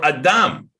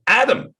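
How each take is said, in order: First: Adam as "ah-DAHM", stress on the end; Adam Hebrew-style, landing on DAHM; Hebrew pronunciation. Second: Adam as "AD-um", stress up front; Adam with short first a and weak ending; English pronunciation. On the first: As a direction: say Adam with open ah vowels, second syllable long. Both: Shown as a demonstration. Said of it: "how about Adam or Adam".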